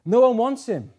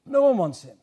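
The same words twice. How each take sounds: First: Laughs through it, a bit higher and louder; laughing. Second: Said in the usual way. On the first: Real, not acted. Preacher laughing as he tells the church nobody wants Christ. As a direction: chuckle out the hard truth.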